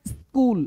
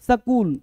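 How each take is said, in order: First: The s and k form one cluster, no vowel. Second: A vowel is inserted between the s and k. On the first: The speaker calls it right. "बोलना क्या है, स्कूल" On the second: The speaker calls it wrong. "कुछ लोग ... सकूल ... यह भी गलत है"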